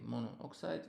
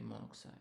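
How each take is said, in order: First: The vowel before oxide is fully kept. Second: The vowel before oxide is dropped. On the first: The speaker calls it wrong. "we don't say mono oxide" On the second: The speaker calls it right. "we say monoxide"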